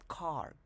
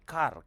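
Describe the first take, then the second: First: It is said with a native English accent. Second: It is said with a Tagalog accent.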